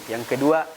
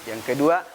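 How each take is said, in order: The two takes are said the same way.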